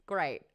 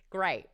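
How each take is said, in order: Both takes have the same delivery.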